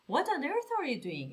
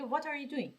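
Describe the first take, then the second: First: Slow, stretched disbelief on on earth; amazed question. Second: Said in the usual way. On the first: Shown as a demonstration. Teacher demoing a stunned question to messy kids. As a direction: draw out the shock.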